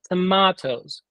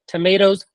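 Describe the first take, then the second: First: The word is said a fancier-sounding way. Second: The word is said the ordinary, plain way. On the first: These are the pricier tomatoes that seem fancier. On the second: These are the cheaper, ordinary tomatoes.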